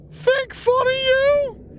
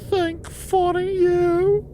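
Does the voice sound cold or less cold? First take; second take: less cold; cold. First: It is said in a less cold voice. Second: It is said in an icy, cold voice.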